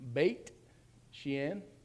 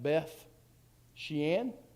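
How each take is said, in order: First: The first word ends with a 't' sound. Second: The first word ends with a 'th' sound. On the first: This is how the name is actually said. "but uh, it is" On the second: This is how the name reads as written. "up there you would read that"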